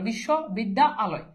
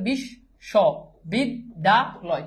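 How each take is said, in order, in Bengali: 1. শব্দটি তিনটি আলাদা অংশে ভাগ হয়েছে। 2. শব্দটি চারটি আলাদা অংশে ভাগ হয়েছে। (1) "কেউ যদি এভাবে উচ্চারণ করে" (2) "আমি যদি এভাবে উচ্চারণ করি"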